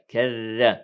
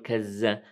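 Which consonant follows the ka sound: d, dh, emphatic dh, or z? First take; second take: dh; z. First: The consonant after ka is a plain dh sound. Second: The consonant after ka is a z sound. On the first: The speaker calls it right. "إنها ذال" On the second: The speaker calls it wrong. "لا نقول كز"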